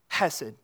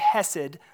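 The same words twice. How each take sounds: First: The first sound is rasped from the throat. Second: The first sound is a plain breathy h. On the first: The speaker calls it right. "You got to get it from the throat" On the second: The speaker calls it wrong. "Don't say hesed"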